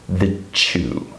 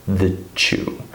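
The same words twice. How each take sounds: No difference in how they are said.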